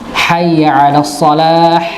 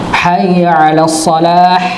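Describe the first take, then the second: Both takes have the same delivery.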